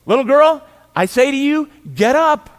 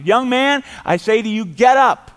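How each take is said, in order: First: Put-on a high, loud command to the dead girl; commanding call. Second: A loud, raised command to the dead; commanding call. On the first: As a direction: order the girl to rise with full authority. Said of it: "he just speaks to the corpse". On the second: Acted. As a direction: call the dead man up with authority. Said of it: "He says".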